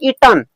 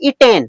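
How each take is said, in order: First: The second syllable is reduced to a short 'tn'. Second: The second syllable is a full 'ten' sound. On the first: "इसे होता है ईटन" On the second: "लेकिन अधिकतर लोग बोलते हैं ईटेन"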